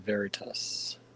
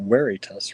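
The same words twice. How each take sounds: First: The word begins with a V sound. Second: The word begins with a W sound.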